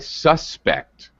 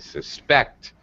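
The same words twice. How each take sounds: First: The stress is on the first syllable. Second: The stress is on the second syllable. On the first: It is a noun naming a person. "First syllable stress" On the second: It is a verb meaning to believe something. "Second syllable stress when it's a verb"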